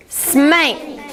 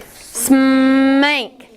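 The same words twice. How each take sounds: First: Said in the usual way. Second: Smank drawn out slowly; stretched word. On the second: Shown as a demonstration. Teacher stretching a word for pupils. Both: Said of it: "we're gonna stretch these words".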